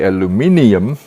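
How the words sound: It is said the South African way, aluminium.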